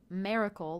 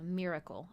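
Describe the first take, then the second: First: The first syllable rhymes with 'mare'. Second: The first syllable rhymes with 'mirror'. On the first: The speaker calls it wrong. "like mare, like Mary" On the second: The speaker calls it right. "instead of miracle"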